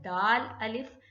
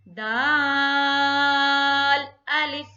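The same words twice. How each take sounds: First: Said in the usual way. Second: दाल held six beats, loud and slow; tajweed recitation. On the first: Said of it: "पहला दाल और दूसरा अलिफ". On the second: Shown as a demonstration. Teacher recites for students, long loud chant. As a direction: chant दाल अलिफ, drawing out दाल. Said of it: "पढ़ लीजिएगा इसको कैसे".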